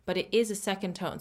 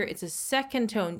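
First: Firm contrastive stress on is. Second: Said in the usual way. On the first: Shown as a demonstration. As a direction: insist with the word is, correcting a common mistake. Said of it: "Usually you will see it written down as a fourth tone". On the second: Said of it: "Be careful, guys".

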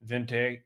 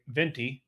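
First: "venti" said as VEN-tay; venti ending in "tay". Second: Said in the usual way. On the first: Real, not acted. Host naming his coffee size, "venti" as VEN-tay. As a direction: end "venti" on an ay sound.

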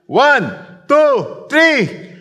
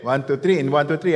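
First: Rising shouted count, higher each number; loud count. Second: Said in the usual way. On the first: Real, not acted. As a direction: count them in at full voice. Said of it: "Ready na kayo?". (malakas na pagbilang)

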